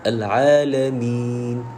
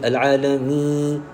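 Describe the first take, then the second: First: The long vowel stays clear without nasality. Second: The long vowel goes through the nose. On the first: The speaker calls it right. "Itu bacaan yang tepat" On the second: The speaker calls it wrong. "dah masuk hidung dulu dah. Jadi salah"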